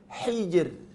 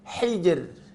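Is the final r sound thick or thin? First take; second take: thin; thin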